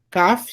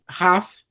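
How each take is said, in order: First: It begins with a hard K sound. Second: It begins with a raspy throat sound. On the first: The letter has a dot. "som de K ou C" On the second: The letter has no dot. "som de R R forte"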